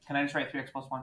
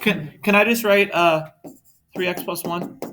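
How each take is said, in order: First: Said in the usual way. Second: Loud, higher whiny student ask. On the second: Retold or imitated. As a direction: beg it like a student. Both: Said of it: "the whiny student voice".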